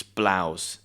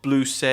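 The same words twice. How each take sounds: First: "blouse" as one syllable, rhyming with cows; correct pronunciation. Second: "blouse" wrongly said as "bloo-say"; mispronunciation demo. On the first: Teacher correcting the error for learners, "blouse" pronounced with "ow". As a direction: say "blouse" low and falling, with an "ow" vowel. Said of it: "it's blouse". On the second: Teacher warning learners of an error, "blouse" mispronounced as "bloo-say". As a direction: say "blouse" in two syllables, BLOO-say. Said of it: "It's not blouse". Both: Shown as a demonstration.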